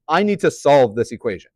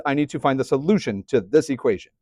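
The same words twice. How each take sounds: First: Said in the usual way. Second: Solution pressed hard, rest of the line level; stress on solution. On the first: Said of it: "Why am I stressing the word solution". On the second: Shown as a demonstration. Teacher to class, hammering solution home. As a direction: lean into the word solution. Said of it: "Why am I stressing the word solution so hardcore".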